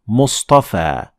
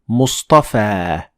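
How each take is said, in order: Both takes have the same delivery.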